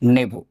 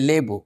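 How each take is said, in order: First: The word begins with an N sound. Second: The word begins with an L sound. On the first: "ব্যঞ্জন বর্ণ ল রূপের পরিবর্তন করে দন্তন্য হয়ে গেছে" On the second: "আমরা বললাম লেবু"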